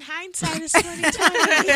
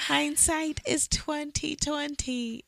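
First: Laughing it out high and bright; tossed off through a laugh. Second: Slow, soft, drawn-out musing. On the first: Friend laughs about the surprise baby, high-pitched laughing aside. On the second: Reflecting on the surprise pregnancy, slow soft musing. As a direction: let it sink in, much quieter. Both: Shown as a demonstration.

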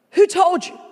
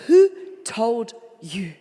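First: Higher and louder, pressing on "Who told you?"; loud, pressing question. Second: Slow, weighty question, hanging on "Who". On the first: The Lord presses Adam again, loud insistent question. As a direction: press the question home with force. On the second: The Lord asks Adam who told him, slow weighty question. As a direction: lean slowly on "Who told you?" as God asks Adam. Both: Acted. The Lord says these words.

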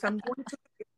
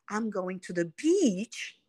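First: "beach" with the ee clipped short; hurried "beach", vowel not held; too-short vowel. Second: "beach" held on a long ee; slow phrase landing on a long "beach"; stretched long vowel. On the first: Retold or imitated. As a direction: imitate a learner rushing the vowel in "beach". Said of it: "mas faz rápido demais". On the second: Shown as a demonstration. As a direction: say it slowly, drawing out the ee in "beach". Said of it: "Porque beach precisa esticar".

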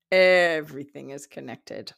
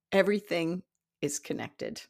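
First: Everything hit loud and low; stress on EVERYTHING. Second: Said in the usual way. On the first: Real, not acted. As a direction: punch the start of Everything, then ease off. Lesson repeated for emphasis.

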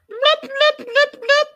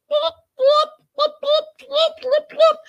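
First: Loud squeaky high lip blops; imitating Darcy. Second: Loud squeaky blop noises way up high; lip popping blops. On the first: Vlogger redoing Darcy's alien skit, loud high lip pops. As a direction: pop the lips like Darcy did on screen. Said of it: "I'm just imitating what she was doing". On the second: Retold or imitated. Imitating Darcy's alien skit, loud high squeaky lip pops. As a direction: pop the lips like a silly alien.

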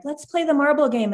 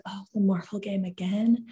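First: High, childlike mock pleading; imitating eager daughter. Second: Mock-weary, deflated question; half-hearted groan at a child's request; retold reluctance. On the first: Daughter asking mom to play a game, eagerly imitated. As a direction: pipe up like a little kid wanting play. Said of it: "my daughter was like". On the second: Mom doing laundry answers daughter's game request, mock reluctant.

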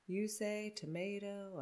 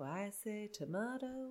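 First: Soft tomato as "toh-MAY-toh"; contrasting pronunciation. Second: Soft tomato as "toh-MAH-toh"; contrasting pronunciation. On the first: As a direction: say tomato with an "ay" vowel, quietly. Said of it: "I say tomato". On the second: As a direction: say tomato with an "ah" vowel, quietly. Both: Shown as a demonstration.

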